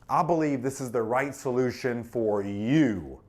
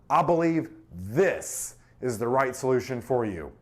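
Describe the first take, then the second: First: The word "you" carries the stress. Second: The word "this" carries the stress. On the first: The solution is tailored to the listener. "That makes it personal" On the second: This one is chosen over other options. "This, there's other options, right?"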